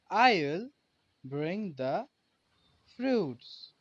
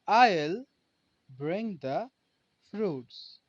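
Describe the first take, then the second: First: I will is shortened to one syllable. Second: I will is shortened to one syllable.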